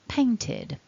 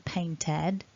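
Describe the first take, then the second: First: The ending has a short 'i' vowel. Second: The ending has an 'eh' vowel. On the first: The speaker calls it right. "it's just a short I" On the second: The speaker calls it wrong. "Don't say painted. It's not an eh"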